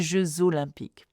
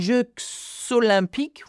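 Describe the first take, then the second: First: A z sound joins the two words. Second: No z sound joins the two words. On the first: The speaker calls it right. "we say ... we Z sound" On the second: The speaker calls it wrong. "instead of saying"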